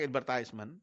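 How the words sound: It is said with an American accent.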